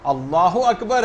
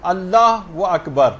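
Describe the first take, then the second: First: Slow اللہ اکبر with no و between the words; the right takbir without a linking و; correct pronunciation. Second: Slow اللہ و اکبر with an added و between the words; mispronounced takbir with an extra و; wrong pronunciation. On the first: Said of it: "اللہ اکبر ہے یہ". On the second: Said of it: "بہت سارے غلط تلفظ". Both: Shown as a demonstration.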